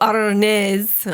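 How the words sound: It is said in an Italian accent, rolling the R.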